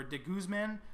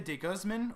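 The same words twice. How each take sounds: First: "de Guzman" with a short DIH and GOOZ like goose; de Guzman as dih GOOZ-man. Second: "de Guzman" with DAY first and GUZ rhyming with buzz; de Guzman as day GUZZ-mun. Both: Shown as a demonstration. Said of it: "or de Guzman".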